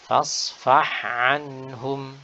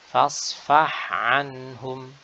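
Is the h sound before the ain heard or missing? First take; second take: heard; heard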